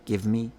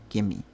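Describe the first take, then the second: First: The v sound is clearly pronounced before the m. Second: The v sound is dropped and merged into the m. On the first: The speaker is being careful. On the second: The speaker is tired or careless.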